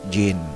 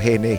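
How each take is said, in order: First: The name begins with a J sound. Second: The name begins with a breathy H sound. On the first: The name is read the English way. "hindi Gin" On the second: The name is read the Spanish way. "kung bakit ganoon ang pagbigkas ko Henny"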